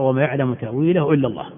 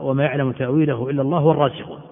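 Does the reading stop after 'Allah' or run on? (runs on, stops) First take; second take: stops; runs on. First: The reading stops after the word Allah. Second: The reading runs on past Allah without a stop. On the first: Only God knows the true nature of it. "الوقف على لفظ الجلالة، أن تقف تقرأ" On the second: The firmly grounded scholars also know its interpretation. "أن يقرأ بالوصل، تقرأ"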